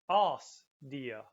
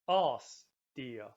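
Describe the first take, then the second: No difference in how they are said.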